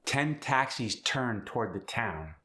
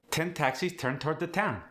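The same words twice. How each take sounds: First: Said in the usual way. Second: "Ten", "taxis", "turned", "town" with a hard T, voice higher; hard initial T. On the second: Shown as a demonstration. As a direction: strike each starting T. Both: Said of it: "The hard T at the beginning".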